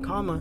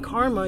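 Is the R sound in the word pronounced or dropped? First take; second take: dropped; pronounced. First: The R sound after the first vowel is dropped. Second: The R sound after the first vowel is pronounced. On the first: "you said comma" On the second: "you didn't say karma"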